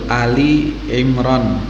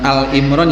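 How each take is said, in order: First: It is said with an i between Al and Imran. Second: It is said with no vowel between Al and Imran. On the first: The speaker calls it right. "Yang betul Ali Imran" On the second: The speaker calls it wrong. "bukan Al Imran"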